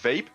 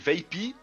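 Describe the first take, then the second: First: The name ends without an extra vowel sound. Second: The name ends with an extra 'ee' sound. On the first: This is what the speaker thinks is correct. "in my opinion it's Vape" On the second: This is how many people say it. "A lot of people say Vapey"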